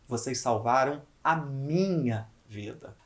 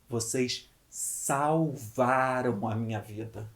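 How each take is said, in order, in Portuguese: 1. A ênfase está em minha. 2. A ênfase está em salvaram. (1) "Agora eu vou valorizar a palavra minha" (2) "se eu valorizar a palavra salvaram"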